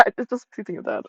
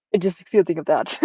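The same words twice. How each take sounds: First: Laughing at her own morbid joke; laughing repeat. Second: Said in the usual way. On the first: Real, not acted. Repeating the aside through a laugh at herself. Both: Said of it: "repeats line laughing".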